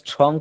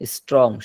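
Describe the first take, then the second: First: The t is said with a strong puff of air. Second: The t is said without a puff of air. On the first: The speaker calls it wrong. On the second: The speaker calls it right.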